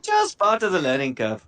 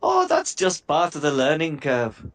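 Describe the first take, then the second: First: Put-on "learning curve" redone in the gnome voice, no Indian accent; back to the gnome voice. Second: Put-on gnome line that slides into a light Indian accent; slipped into Indian. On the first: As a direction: correct yourself and say "learning curve" in the intended gnome voice. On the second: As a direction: let the Irish gnome slip into a mild Indian accent on "learning curve". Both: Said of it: "I went Indian then".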